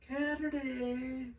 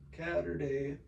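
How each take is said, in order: First: It is said in a funny put-on voice. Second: It is said in his normal voice.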